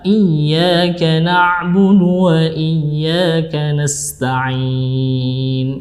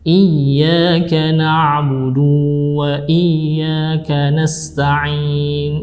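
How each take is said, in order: First: The vowel after the b is kept short. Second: The vowel after the b is drawn out long. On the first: The speaker calls it right. "yang benar adalah" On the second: The speaker calls it wrong. "Kurang tepat"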